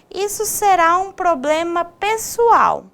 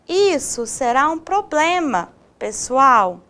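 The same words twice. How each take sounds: First: It runs on with no pause before pessoal. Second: There is a pause before pessoal.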